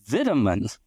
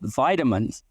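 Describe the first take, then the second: First: It is said with a British pronunciation. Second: It is said with an American pronunciation. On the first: "In London, they call it vitamins" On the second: "in America we call it vitamins"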